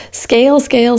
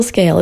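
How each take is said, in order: First: Scale, scale tossed off high and mocking; sing-song mockery of the buzzword scale, scale. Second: Said in the usual way. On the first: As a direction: poke fun at the VC mantra. Gretel mocks VCs' obsession.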